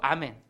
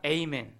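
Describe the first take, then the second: First: The word begins with an open 'ah' vowel. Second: The word begins with an 'ay' glide vowel. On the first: This keeps the original Hebrew form. "아멘도 그대로 아멘" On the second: This is the English form of the word. "영어에서는 아멘이 아니라 에이멘"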